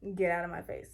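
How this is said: It is said seriously and with frustration.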